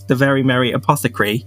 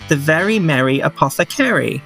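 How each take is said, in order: First: It is said in a non-American accent. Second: It is said in an American accent. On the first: The speaker calls it wrong. "if I say it in my actual voice" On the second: The speaker calls it right. "If I say it American"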